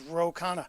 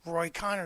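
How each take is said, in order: First: The name is said like Ro Khanna. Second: The name is said like Roy Connor. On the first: The speaker calls it right. "His name's Ro Khanna" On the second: The speaker calls it wrong. "this guy's name is not Roy"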